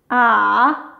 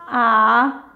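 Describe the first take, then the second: The two takes are said the same way.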